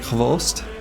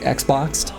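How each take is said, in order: First: The name is said as one syllable, 'hvost'. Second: The name is read like English 'ex-boxed'. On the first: The speaker calls it right. "the actual pronunciation is closer to like Hvost" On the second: The speaker calls it wrong. "which I always just said is like Xboxed"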